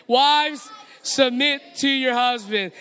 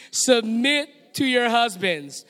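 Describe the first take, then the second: First: Louder, like you believe it. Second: Said in the usual way. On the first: Shown as a demonstration. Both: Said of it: "Let's say it out louder like you believe it".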